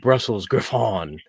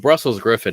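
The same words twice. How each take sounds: First: The name is pronounced in a posh, affected way. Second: The name is pronounced in an ordinary, plain way.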